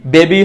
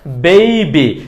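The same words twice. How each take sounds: First: বেবি as "be-bi", plain e; wrong pronunciation. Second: বেবি as "bei-bi"; correct pronunciation. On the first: Teacher rejecting the mistake, বেবি with pure e. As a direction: keep বেবি without a glide. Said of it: "হবে না". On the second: Teacher modelling for learners, বেবি with ei. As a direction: draw an ei glide in বেবি. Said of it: "এটার সঠিক উচ্চারণ হবে". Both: Shown as a demonstration.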